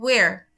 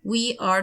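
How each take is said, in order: First: The words are contracted into one syllable. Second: Two full words are said separately.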